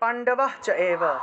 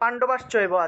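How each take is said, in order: First: The phrase is split into three separate words. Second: The phrase is said joined as one word.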